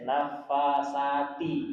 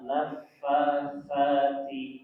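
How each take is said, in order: First: The 't' is strong and clearly heard. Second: The 't' is thin with a small burst. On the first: The speaker calls it wrong. "Orang Indonesia nafasati, ti-nya kedengaran" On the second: The speaker calls it right.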